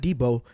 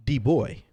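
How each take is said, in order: First: Debo said as dee-boh, ending in a long oh; wrong name. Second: Put-on D-Boy said as dee-boy, ending in boy; D-Boy with a clear oy at the end; corrected name. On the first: Retold or imitated. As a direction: Debo with a flat oh at the end, not boy. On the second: Shown as a demonstration. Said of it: "No, not Debo".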